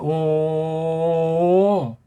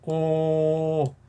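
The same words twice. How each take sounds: First: The vowel is drawn out longer. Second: The vowel is held only briefly.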